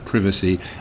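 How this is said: The word is said with a British pronunciation. "I'm British, so I'm going to say"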